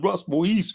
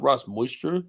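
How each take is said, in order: First: "Moise" French-style, ending in a long eez; French-style pronunciation. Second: "Moisture" as the English word for dampness; English word pronunciation. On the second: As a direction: say "Moisture" with MOYS-cher, the mistaken name. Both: Acted. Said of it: "not Ross Moisture".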